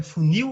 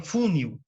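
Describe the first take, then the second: First: "funil" stressed on the final NIL, fu-NIL; stress on last syllable. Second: "funil" wrongly stressed as FÚ-nil; stress on first syllable. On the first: Teacher tests the word's strong syllable, stress on last syllable of "funil". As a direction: punch the second syllable of "funil". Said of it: "ela é mais forte". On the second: Teacher offers a wrong option, stress on FU of "funil". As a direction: hit FU in "funil", let NIL drop. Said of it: "ou você fala funil". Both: Shown as a demonstration.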